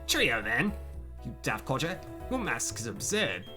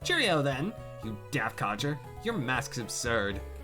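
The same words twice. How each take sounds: First: It is read in a put-on British accent. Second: It is read in the speaker's ordinary accent.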